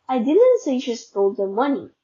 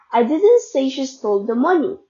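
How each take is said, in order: First: The stress falls on the word I. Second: The stress falls on the word money. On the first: Someone else said it. "meaning someone else said it" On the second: Something else was stolen. "meaning she stole something else"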